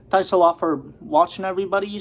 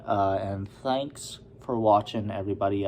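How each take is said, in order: First: Higher and louder, upbeat thanks; cheery sign-off. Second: Said in the usual way. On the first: Real, not acted. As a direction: sign off with a lift in the voice. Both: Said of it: "I said that already".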